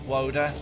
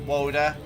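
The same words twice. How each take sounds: No difference in how they are said.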